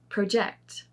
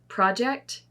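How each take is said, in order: First: The stress is on the second syllable. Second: The stress is on the first syllable. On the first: It is used as a verb. "with the verbs, the emphasis is not on the first" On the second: It is used as a noun. "for most of these nouns is on the first syllable"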